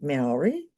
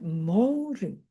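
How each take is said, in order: First: It is said with an English-style pronunciation. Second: It is said with a native Maori pronunciation. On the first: The speaker calls it wrong. "I didn't even pronounce it properly then" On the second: The speaker calls it right. "with this beautiful sound"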